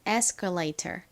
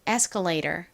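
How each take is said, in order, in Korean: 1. t는 분명한 t 소리로 발음합니다. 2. t는 짧은 flap 소리로 부드럽게 발음합니다.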